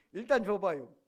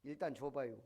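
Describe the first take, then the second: First: "일단 줘봐요" fired off louder, short and quick; quick clipped Chungcheong reply. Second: Quoting Yun Bong-gil, plain. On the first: Shown as a demonstration. Preacher re-enacting Yun Bong-gil's terse answer, louder. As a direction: snap it back like a quick man. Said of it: "빨라". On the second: Retold or imitated. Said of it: "충청도 사람 윤봉길이".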